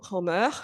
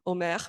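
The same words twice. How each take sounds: First: The name is said the English way. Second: The name is said the French way. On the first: The speaker calls it wrong. "Je suis plus habituée de, de le prononcer en anglais" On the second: The speaker calls it right.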